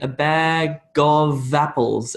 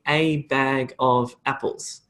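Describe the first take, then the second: First: The words run together smoothly into one unit. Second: Each word is said separately without linking. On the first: The speaker calls it right. "I'm connecting up those words into a natural sort of rhythm" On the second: The speaker calls it wrong. "I don't say a bag of apples. That's unnatural"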